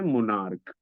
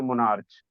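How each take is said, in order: First: The word ends with a 'k' sound. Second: The word ends with a 'ch' sound. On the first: The speaker calls it right. "C H का उच्चारण जो हो रहा है वो क हो रहा है" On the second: The speaker calls it wrong. "इसे मोनार्च नहीं पढ़ा जाता है"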